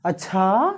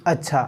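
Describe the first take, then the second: First: Drawn-out "अच्छा" climbing at the end; rising intonation. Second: Short low "अच्छा" with a falling end; falling intonation. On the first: Teacher reacting to "India lost" example, questioning long "अच्छा". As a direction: turn "अच्छा" into a questioning rise. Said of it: "Bharat हार गया". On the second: Teacher reacting to "India won" example, low falling "अच्छा". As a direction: let "अच्छा" drop, brief and low. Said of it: "Bharat जीत गया". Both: Shown as a demonstration.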